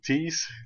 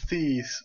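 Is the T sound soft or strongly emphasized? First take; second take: emphasized; soft. First: The T sound is hard and strongly emphasized. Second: The T sound is soft and ordinary. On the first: "with the typical Dutch accent, you really put an emphasis on things like a T" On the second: "all the T's will transform into"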